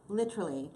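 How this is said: It is said in a put-on British accent.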